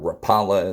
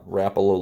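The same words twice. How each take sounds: First: The name has an American pronunciation. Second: The name has its original, non-American pronunciation. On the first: The speaker calls it wrong. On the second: The speaker calls it right.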